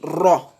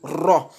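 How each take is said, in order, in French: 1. Le r est lourd, avec une voyelle plus sombre et arrondie. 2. Le r est lourd, avec une voyelle plus sombre et arrondie.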